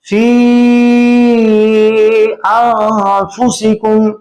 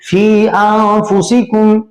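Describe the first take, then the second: First: The vowel is held for three beats. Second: The vowel is held for one beat. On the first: "तूल कर दें" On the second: "यूं भी पढ़ सकते हैं"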